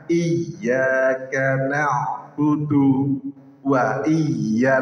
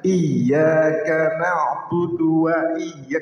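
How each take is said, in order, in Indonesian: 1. Frasa ini terputus oleh sebuah henti di tengahnya. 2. Frasa ini mengalir terus tanpa henti sama sekali. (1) "harusnya tidak berhenti jadi berhenti" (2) "kan disambung lah"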